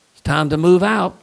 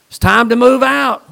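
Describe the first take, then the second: First: Said in the usual way. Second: Loud and higher, ringing out like a trumpet; a preacher bursting out with the command to move; shouted call. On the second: Acted. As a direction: proclaim it full force to the congregation. Preacher repeats line, then shouts it.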